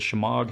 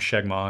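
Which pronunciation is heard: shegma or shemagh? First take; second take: shemagh; shegma. First: The word is said as she-magh. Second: The word is said as sheg-ma. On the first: The speaker calls it right. "Is it a Shemagh?" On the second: The speaker calls it wrong. "I always call them Shegma, and people point out in the comment section, that's wrong"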